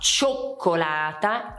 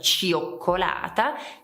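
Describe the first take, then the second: First: The i is silent in the first syllable. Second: The i is sounded as its own vowel. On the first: The speaker calls it right. "si dirà cioccolata" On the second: The speaker calls it wrong. "e non cioccolata"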